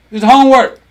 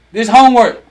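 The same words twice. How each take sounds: The two takes are said the same way.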